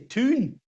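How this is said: It is said with a Geordie oo vowel.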